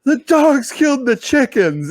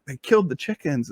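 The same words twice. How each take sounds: First: High, slow, upset announcement; wife coming in to report the dogs killed the chickens. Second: Said in the usual way. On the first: Retold or imitated. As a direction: break the bad news, imitating wife.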